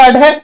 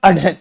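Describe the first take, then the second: First: "अढे" said as a-ṛe, short vowel then flap; teacher's demo of "अढे" as plain ड़; unaspirated ड़. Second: "अढे" said as a-ṛhe, short vowel then breathy flap; teacher's demo of "अढे" as aspirated ढ़. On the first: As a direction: say "अढे" with no puff of air on the flap. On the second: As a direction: say "अढे" with a puff of air on the flap. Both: Shown as a demonstration. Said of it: "तो इसका उच्चारण हो जाएगा".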